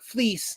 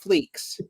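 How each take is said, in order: First: The name ends with a plain s sound. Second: The name ends with a ks sound. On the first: The speaker calls it right. "his name is pronounced like fleece" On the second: The speaker calls it wrong. "not fleeks"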